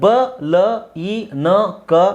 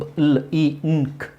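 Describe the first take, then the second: First: Each consonant carries an added vowel sound. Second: Each consonant is sounded bare, without vowel. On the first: The speaker calls it wrong. "ಇದನ್ನು ಬ ಲ ಇ ನ ಕ ಅಂತ ಹೇಳಬಾರ್ದು" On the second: The speaker calls it right. "ಬ್ಲಿಂಕ್ ಹಿಂಗೆ ಬರಬೇಕು"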